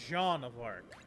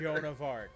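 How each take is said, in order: First: The first name is said the French way. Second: The first name is said the English way. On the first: "if we're talking like in the French dialect, it's more like Jean" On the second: "Most people pronounce it as"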